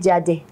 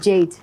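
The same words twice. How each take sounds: First: The name is said with a Yoruba accent. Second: The name is said with a plain pronunciation. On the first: This is a slip into a Yoruba way of speaking. The speaker calls it wrong. "That's a Yoruba way of speaking" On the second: This is the intended way to say it. The speaker calls it right. "instead of saying Jade"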